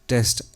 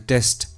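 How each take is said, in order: Both takes have the same delivery.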